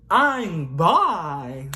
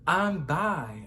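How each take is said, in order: First: "I'm bi" blurted out loud and high; yelled. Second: Said in the usual way. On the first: Retold or imitated. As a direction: shout "I'm bi" across the room. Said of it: "I just yelled". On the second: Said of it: "I just said".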